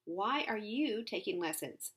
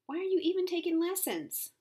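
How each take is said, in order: First: Measured retort with "you" picked out; question turned back. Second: High, loud question pressing "even taking lessons"; "Why are you" pitched up high and loud, falling on "lessons"; incredulous challenge. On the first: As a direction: stress on "you", falling through "taking lessons". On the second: Challenges the skilled twirler. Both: A narrator's reading.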